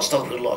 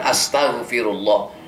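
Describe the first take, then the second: First: It is said quickly and hurriedly. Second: It is said slowly and calmly. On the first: The words are said without reflecting on one's sins. The speaker calls it wrong. "baca istighfarnya ngebut" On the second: The heart is engaged in seeking forgiveness. The speaker calls it right. "sebaik-baiknya adalah dengan tenang"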